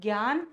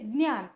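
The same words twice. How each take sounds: First: It begins with a g sound blended with y. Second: It begins with a d sound blended with ny. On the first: This is how Hindi speakers say it. "Hindi भाषिकांप्रमाणे" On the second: This is how Marathi speakers say it. "Marathi भाषिकांप्रमाणे"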